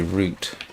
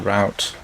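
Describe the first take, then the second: First: It is said with a British pronunciation. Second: It is said with an American pronunciation. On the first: "or should I say route" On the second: "I spent too long in the United States"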